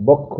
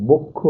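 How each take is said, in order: First: বক্ষ with open aw, "bawk-kho"; as written. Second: বক্ষ with round o, "bok-kho"; as pronounced. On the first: Teacher reads out what is written, বক্ষ with an open first vowel. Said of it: "লিখছি আমরা". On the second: Teacher shows how it is pronounced, বক্ষ with a round o. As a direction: say বক্ষ with the first vowel closed to o. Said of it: "উচ্চারণ হবে". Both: Shown as a demonstration.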